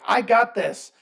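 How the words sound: It is said in a high-pitched, annoying voice.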